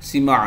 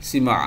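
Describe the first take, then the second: No difference in how they are said.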